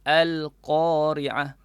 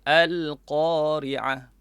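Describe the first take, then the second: Both takes have the same delivery.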